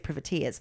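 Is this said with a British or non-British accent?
British. It is said in a British way.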